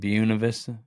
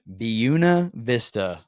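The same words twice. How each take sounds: First: The first word begins with a 'bway' sound. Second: The first word begins with a 'byoo' sound. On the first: The speaker calls it wrong. "I've been saying it wrong" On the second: The speaker calls it right. "It's Buena Vista"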